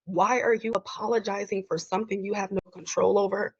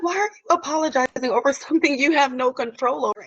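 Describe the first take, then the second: First: Said in the usual way. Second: Imitating boss. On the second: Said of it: "she's like".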